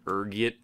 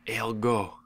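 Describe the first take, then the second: First: The word ends with a t sound. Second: The word ends without a t sound. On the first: The speaker is of lower social standing. "depending on your social standing, ranging from ergot" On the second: The speaker is of higher social standing. "to ergo"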